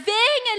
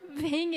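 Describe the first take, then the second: First: It is said in a harsh, scolding voice. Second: It is said in a soft, gentle voice.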